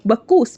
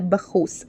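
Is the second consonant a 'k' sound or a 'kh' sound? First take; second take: k; kh. First: The name is said with a plain k sound. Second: The name is said with a throaty kh sound. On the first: This is the name as locals say it. "الراجل أساسًا كان اسمه بكوس" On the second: This is how Greeks said the name. "بما إن هم بيقولوا الكاف خ"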